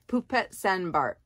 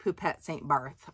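First: The name is read with French pronunciation. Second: The name is read with English pronunciation. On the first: "in the French pronunciation, I suppose" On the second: "It looks like"

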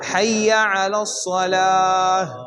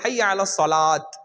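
First: The last word ends with an h sound. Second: The last word ends with a t sound. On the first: The speaker calls it right. "அந்த இஹ் சவுண்ட் அங்கே வரணும்" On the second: The speaker calls it wrong. "அது தப்பு"

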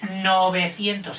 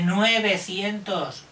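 First: The first syllable is pronounced 'no'. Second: The first syllable is pronounced 'nue'. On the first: The speaker calls it right. "Se dice 900" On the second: The speaker calls it wrong. "Pero no se dice 900. Solo dicen los que son un poco catetillos"

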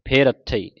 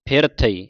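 First: The r sound begins the second word. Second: The r sound ends the first word. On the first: The speaker calls it wrong. "ਕਈ ਸੰਗਤਾਂ ਪੜ੍ਹ ਜਾਂਦੀਆਂ ਫੇ ਰੱਥਈ, ਇਸ ਤਰ੍ਹਾਂ ਨਹੀਂ ਪੜ੍ਹਨਾ" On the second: The speaker calls it right. "ਫਿਰ ਥਈ ਇਸ ਤਰ੍ਹਾਂ ਪੜ੍ਹਨਾ ਹੈ"

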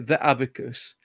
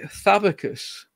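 First: 'The' is said as a separate full word. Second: 'The' is merged into the word 'abacus'. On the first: This is the form not used locally. "we don't say the abacus" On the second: This is the local regional form. "in the northwest of England, we say Thabacus"

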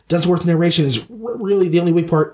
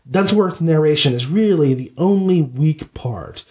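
First: The words come at a quick, rushed pace. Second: The words come at a slow, even pace. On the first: The speaker calls it wrong. "I think he goes, ... He kind of has this speedy kind of quality" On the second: The speaker calls it right. "I think instead of saying like"

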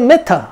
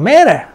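First: The word is said in a British accent. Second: The word is said in an American accent. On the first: "영국에서는" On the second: "미국에서는"

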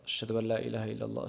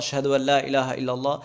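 First: The phrase is said in a low, quiet voice. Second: The phrase is said in a loud voice. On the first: "প্রথমে নিম্ন ভয়েসে বলার" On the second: "এরপরে জোরে বলা"

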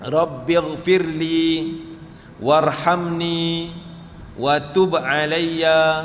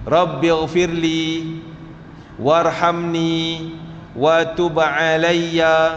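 No difference in how they are said.

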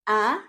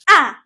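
First: The pitch rises like a question. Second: The pitch sounds sharp, as if angry. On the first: "para ka lang nag-ask ng question ... pataas yung tone natin" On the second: "para ka lang nagagalit"

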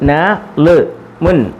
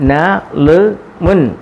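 First: The syllables are said separately with breaks. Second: The same.

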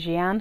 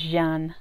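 First: The name is pronounced the English way. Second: The name is pronounced the French way. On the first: The speaker calls it wrong. "but I always like to say Jeanne" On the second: The speaker calls it right. "it's Jeanne is how you actually say this"

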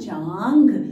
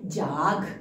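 First: The first vowel is nasalized through the nose. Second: The first vowel is plain, without nasalization. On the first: The speaker calls it right. "ज को न से बोल रहे हैं हम" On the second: The speaker calls it wrong. "जाघ कोई शब्द होता है नहीं"

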